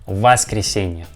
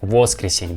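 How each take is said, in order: First: The first vowel is an a sound. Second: The first vowel is a full o sound. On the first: The speaker calls it right. "But we pronounce this word with the letter A" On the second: The speaker calls it wrong. "we don't pronounce like воскресенье, воскресенье, because with the letter O"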